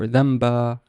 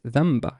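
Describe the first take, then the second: First: The final vowel is long. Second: The final vowel is short. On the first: The speaker calls it wrong. "It's not dhanaba or dhamba" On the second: The speaker calls it right. "Notice the short vowel at the end. It's not long"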